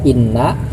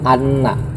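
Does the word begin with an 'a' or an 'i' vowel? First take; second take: i; a. First: The word begins with an 'i' vowel. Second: The word begins with an 'a' vowel. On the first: "boleh dibaca kasroh inna" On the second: "boleh dibaca fathah juga anna"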